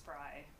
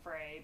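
First: The vowel sounds like the one in fly. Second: The vowel sounds like the one in day. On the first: The speaker calls it right. "that's how it's pronounced as Fry" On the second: The speaker calls it wrong. "I think a lot of people say Frey"

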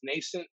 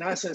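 First: The word does not sound like Nas plus cent. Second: The word sounds like Nas plus cent. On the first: The speaker calls it right. "I think the correct way is nascent" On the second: The speaker calls it wrong. "nascent sounds a little cool"

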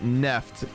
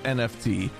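First: It is said as a single one-syllable word. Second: It is said as three separate letters. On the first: The speaker calls it wrong. "The Verge wants you to pronounce it Neft" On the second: The speaker calls it right. "It's NFT"

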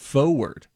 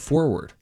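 First: It is said with a New Jersey pronunciation. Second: It is said with a standard pronunciation. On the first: The speaker calls it wrong. "I think that might be a little Jersey in it" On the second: The speaker calls it right. "instead of forward"

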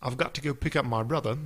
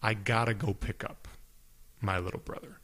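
First: It is said in a British accent. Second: It is said in an American accent.

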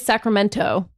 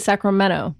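First: The t is pronounced as a clear T. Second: The t sounds almost like a D. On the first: The speaker calls it wrong. "People don't say Sacramento" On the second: The speaker calls it right. "They say Sacramento. ... it's almost like a D"

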